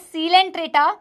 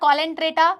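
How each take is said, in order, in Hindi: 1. यह शब्द s ध्वनि से शुरू होता है। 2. यह शब्द k ध्वनि से शुरू होता है। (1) "this is सीलेंट्रेटा" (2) "this is not कॉलेंट्रेटा"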